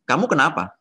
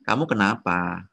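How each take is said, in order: First: The question is asked in an annoyed tone. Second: The question is asked without an annoyed tone. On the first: "Bete dong tone-nya" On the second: "Beda lagi tone-nya"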